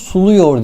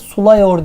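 First: The second vowel is a narrow u sound. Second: The second vowel is an open a sound. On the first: The speaker calls it right. "Bunu suluyor diye okuruz" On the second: The speaker calls it wrong. "sulayor diye okumayız"

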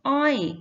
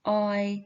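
First: The syllable is said with a changed tone. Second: The syllable is said in its base tone. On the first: "ไม่โท อ้อย" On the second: "อ่านว่าอออยออย"

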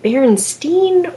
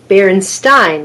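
First: The last syllable sounds like 'stain'. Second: The last syllable sounds like 'stine'.

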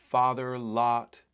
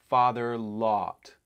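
Both takes have the same delivery.

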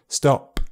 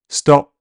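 First: The final p pops out with a sharp ejective burst. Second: The final p has no audible release of air. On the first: "an ejective P could occur where the sound is released by pushing air out" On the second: "Unreleased p is when you can't really hear any release of air"

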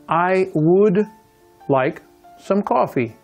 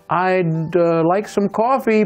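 First: Both words 'I would' are fully pronounced. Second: 'I would' is shortened to one syllable 'I'd'. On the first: "you notice I didn't contract I would" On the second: "Here's the contraction"

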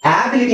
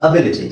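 First: The first vowel is a long 'aa'. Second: The first vowel is a short 'a'. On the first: The speaker calls it wrong. "ಆಬಿಲಿಟಿ ಅಂತ ಹೇಳಂಗಿಲ್ಲ" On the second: The speaker calls it right. "ಅ ಚಿಕ್ಕ ಅ"

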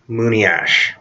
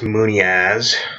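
First: The word ends with an sh sound. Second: The word ends with a z sound. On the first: The speaker calls it right. "It's pronounced muniash" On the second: The speaker calls it wrong. "It's not pronounced muniaz, like how some people pronounce it"

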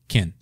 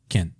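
Both takes have the same delivery.

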